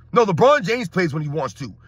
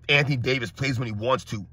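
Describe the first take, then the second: First: Firm correction, leaning on "LeBron James"; corrective stress. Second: Much lower mock-quote voice; mocking fan imitation. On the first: Real, not acted. Host correcting fans on who coasts, stress on "LeBron James". Corrects the mimicked fan claim. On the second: Host parroting fans' jab at Anthony Davis, low mocking imitation. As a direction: parrot the excuse in a dull low voice. Mimics fan's comment, mocking.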